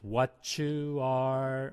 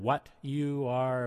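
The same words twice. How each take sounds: First: The T and Y blend into a CH sound. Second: The T and Y are said separately. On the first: "another thing we're focusing on is what you are" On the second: "rather than what you are"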